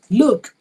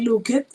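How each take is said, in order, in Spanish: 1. La terminación es un sonido 't' corto. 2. La terminación se pronuncia como una sílaba 'ed' separada. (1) "Con esa T al final" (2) "no sería looked"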